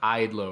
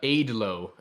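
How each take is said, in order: First: The name starts with an 'eye' sound. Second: The name starts with an 'ay' sound. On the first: The speaker calls it wrong. "and not Idlo, or however I was pronouncing it earlier" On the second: The speaker calls it right. "apparently it is uh, Aidlo"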